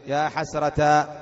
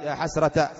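First: "حسرة" slowly said as ḥasratā, long ā; long final alif. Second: "حسرة" said as ḥasrata, short ending; short final a. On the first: Teacher prompts students with next form, long -tā on "حسرة". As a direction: stretch the end of "حسرة" into an open tā. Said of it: "إيش بعدين؟". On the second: Teacher prompts students with next form, short -ta on "حسرة". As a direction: cut the last vowel of "حسرة" to a short ta. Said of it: "بعدين إيش؟". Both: Shown as a demonstration.

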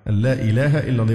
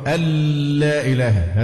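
First: "أن لا" merged smoothly as allaa; even, unexaggerated lam in "أن لا"; correct merging. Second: "أن لا" merged into a long held l, alllaa; exaggerated doubled lam in "أن لا"; overheld merging. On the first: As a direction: say "أن لا إله" without lingering on the l. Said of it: "هذا لحن أيضًا". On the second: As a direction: linger on the l of "أن لا إله". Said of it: "فيقف عليها كأن في إدغام". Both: Shown as a demonstration.

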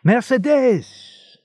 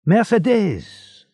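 First: Even higher, drawn-out joyful call; slow, high, loud call of her name; happy shout again. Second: Drawn-out joyful call, high and loud; slow, high, ringing call of her name; happy shout. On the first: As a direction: call out louder to be heard inside. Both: A narrator's reading. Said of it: "a voice shouted happily".

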